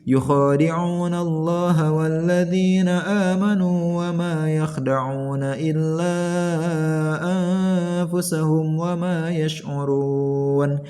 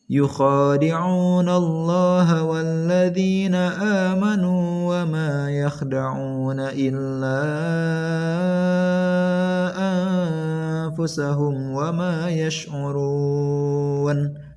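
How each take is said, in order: First: It is recited fast with a short two-beat lengthening. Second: It is recited moderately with a four-beat lengthening. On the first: "Itu dibaca cepat ya" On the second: "itu bacaan sedang panjangnya hanya empat harokat"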